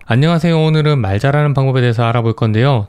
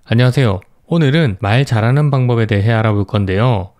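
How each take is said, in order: First: The sentence is spoken quickly with little breathing room. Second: The sentence is spoken slowly with room to breathe. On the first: The speaker wants to finish talking quickly. The speaker calls it wrong. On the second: The speaker is calm and easy to follow. The speaker calls it right.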